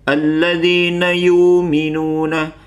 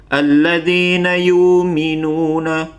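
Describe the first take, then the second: First: The glottal stop is dropped and the vowel lengthened. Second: The glottal stop is dropped and the vowel lengthened.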